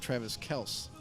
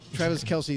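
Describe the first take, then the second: First: The surname is said with one syllable. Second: The surname is said with two syllables. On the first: This is the family's own version. The speaker calls it right. "the real pronunciation is Travis Kels" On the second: This is the version most people use. The speaker calls it wrong. "Travis Kelsey is not my real name"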